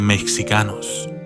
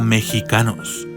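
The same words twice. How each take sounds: First: The x is said as a ks sound. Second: The x is said as a harsh throaty h. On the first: This is how the spelling might suggest saying it. "en vez de mexicanos" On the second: This is how the word is actually pronounced. "se pronuncia mexicanos"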